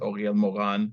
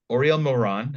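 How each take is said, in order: First: The name is said with a Hebrew pronunciation. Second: The name is said with an American accent. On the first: "in Hebrew" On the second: "I'm saying it with me with my American accent"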